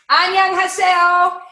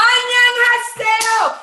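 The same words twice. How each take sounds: First: High, loud, drawn-out Annyeonghaseyo; loud cheerful greeting. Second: Very high, loud, slow Annyeonghaseyo; delighted dry cleaner. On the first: Greeting her Korean dry cleaner, a loud bright Annyeonghaseyo. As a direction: call out Annyeonghaseyo brightly and slowly. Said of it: "I say". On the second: The dry cleaner answering her, a very high delighted Annyeonghaseyo. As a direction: squeal Annyeonghaseyo back in delight. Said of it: "he's like". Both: Retold or imitated.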